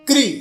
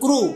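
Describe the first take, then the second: First: The syllable ends with an 'ee' vowel. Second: The syllable ends with an 'oo' vowel. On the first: The speaker calls it right. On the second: The speaker calls it wrong. "Marathi में बोलते क्रू, क्रू नहीं है"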